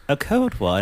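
It is said in a British accent.

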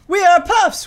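The voice falls at the end, like a statement.

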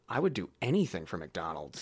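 It sounds passionate and intense.

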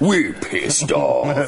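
It is said in a big, scary voice.

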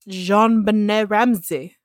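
The name is said in a fancy, showy manner.

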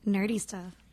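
It is said in a sultry, sensual voice.

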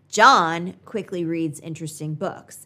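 The word John carries the main stress. It is this person, not someone else, who reads quickly. "The emphasis on John makes him the focus of the sentence"

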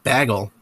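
Bagel is said with a Wisconsin-like vowel. "that sounds a little more Wisconsin"

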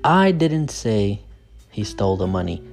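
The word 'I' is stressed. Someone else said it. "So the stress is on I"

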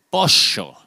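It is said with an Argentine accent.

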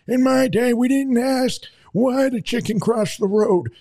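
It is said in a put-on old man's voice.

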